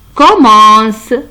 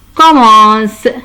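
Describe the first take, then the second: No difference in how they are said.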